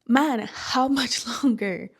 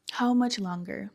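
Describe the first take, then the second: First: Weary laugh. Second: Said in the usual way. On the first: Real, not acted. Exhausted, laughing despair.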